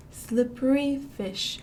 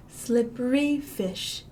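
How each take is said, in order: Both takes have the same delivery.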